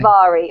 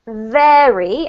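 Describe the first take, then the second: First: The vowel differs from the vowel in fairy. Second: The vowel matches the vowel in fairy. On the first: The speaker calls it wrong. "Instead of" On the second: The speaker calls it right. "pronounce it vary, and it rhymes, for example, with the word fairy"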